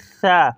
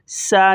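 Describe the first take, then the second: First: It begins with a th sound, tongue between teeth. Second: It begins with a hissing s sound. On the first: The speaker calls it right. "ज़ुबान को थोड़ा सा निकालेंगे, दोनों दांतों के दरमियान देंगे" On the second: The speaker calls it wrong. "सा नहीं, सीन की आवाज़ नहीं"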